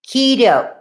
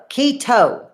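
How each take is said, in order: First: "keto" said as KEE-dough. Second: "keto" said as KEE-toe with a crisp T. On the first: Trying to name that diet, "keto" pronounced like dough. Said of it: "I called it keto, like the dough". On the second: Correcting herself on the diet name, "keto" with a T. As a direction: hit a clear T in "keto". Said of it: "it has a T in it". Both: Shown as a demonstration.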